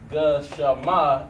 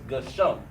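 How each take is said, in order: First: The letters are sounded separately, ending in -ama. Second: The letters run together into a shorter -um ending. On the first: The speaker calls it wrong. "Instead of it being gashama" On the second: The speaker calls it right. "it brings it together"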